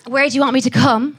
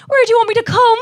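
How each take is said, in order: First: Said in the usual way. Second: High, loud sing-song Cork accent; hammed-up Cork lilt, pitched way up. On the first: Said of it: "If you say that". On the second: Shown as a demonstration. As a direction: call it out in a broad Cork accent. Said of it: "say that in a Cork accent".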